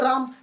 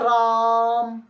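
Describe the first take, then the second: First: The vowel is kept short and normal. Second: The vowel is stretched out, like calling someone.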